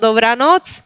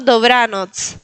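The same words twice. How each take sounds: First: The stress is on the last syllable. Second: The stress is on the middle syllable. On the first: The speaker calls it wrong. "recuerden de no poner acentos al final" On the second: The speaker calls it right. "tratar de poner el acento en el medio de la palabra"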